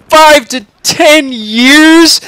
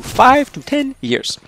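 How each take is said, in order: First: High, loud, drawn-out disbelief; incredulous exclamation. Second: Said in the usual way. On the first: A narrator's reading. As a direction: echo it back in outraged shock. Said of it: "exclaims Charlie".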